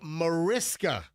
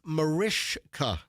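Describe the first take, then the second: First: The middle consonant is a plain s sound. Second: The middle consonant is a sh sound. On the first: The speaker calls it wrong. "a lot of people say Mariska Hargitay" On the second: The speaker calls it right. "It's pronounced Marishka. So you, it's a sh"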